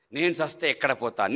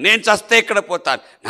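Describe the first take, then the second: First: Said in the usual way. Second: నేను చస్తే ఎక్కడ పోతాను cried out higher and louder, the word చస్తే hit hard; anguished outcry. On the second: Real, not acted. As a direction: burst out with the fear of dying. (ఆవేదనతో గట్టిగా అరవడం) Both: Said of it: "repeated louder".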